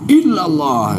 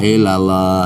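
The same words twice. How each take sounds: First: The word is said with strong, firm emphasis. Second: The word is said slackly, without any emphasis. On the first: The exception is made clear and firm. The speaker calls it right. "harus ditekankan di sana" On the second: The exception loses its force. The speaker calls it wrong. "Kalau santai ... ngelambreh ya. Penekannya nggak ada"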